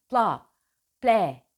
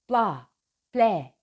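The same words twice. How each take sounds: The two takes are said the same way.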